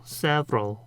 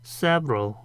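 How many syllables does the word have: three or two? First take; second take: two; two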